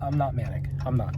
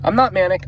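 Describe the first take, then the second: First: "I'm not manic" said much softer, falling on NOT; quiet denial. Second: "I'm not manic" with NOT pushed up higher; emphatic denial. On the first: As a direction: mutter it to yourself, softly. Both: Real, not acted. Denying being manic.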